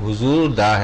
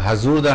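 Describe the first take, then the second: First: The first vowel sounds like a short 'u'. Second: The first vowel sounds like a short 'a'. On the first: The speaker calls it right. "हुजूर दा है" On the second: The speaker calls it wrong. "हजूर दा नहीं है"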